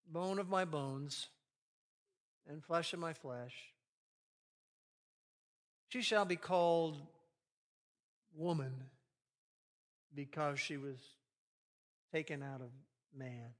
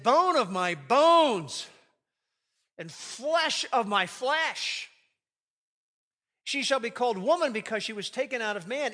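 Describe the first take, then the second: First: Dry textbook reading. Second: Excited. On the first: Shown as a demonstration. Preacher mocking a dull reading, flat and fading. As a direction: read it like a wordy science textbook. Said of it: "we just read it like". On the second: Acted. Adam seeing Eve for the first time, thrilled. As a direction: burst out with joy at the sight of her. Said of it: "Adam said this excitedly".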